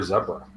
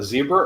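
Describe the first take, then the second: First: "zebra" said ZEB-ruh; short-e zebra. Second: "zebra" said ZEE-bruh; long-e zebra. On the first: Offering co-hosts the other way, "zebra" as ZEB-ruh. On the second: Asking co-hosts which way to say it, "zebra" as ZEE-bruh. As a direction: say "zebra" with a long ee in the first syllable. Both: Shown as a demonstration. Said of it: "Depending on which country you're from".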